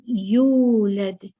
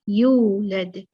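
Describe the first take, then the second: Both takes have the same delivery.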